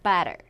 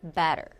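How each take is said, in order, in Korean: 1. 첫 음절에 강세가 있고, 두 번째 음절은 약하게 발음해요. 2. 첫 음절에 강세가 있고, 두 번째 음절은 약하게 발음해요.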